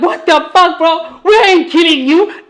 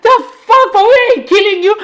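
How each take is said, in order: First: Higher, half-laughing disbelief; a mock-baffled higher protest to a friend; incredulous retelling. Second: Much higher, laughing disbelief; incredulous retelling. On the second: Retold or imitated. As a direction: squeal the protest in amused shock. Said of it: "I'm like".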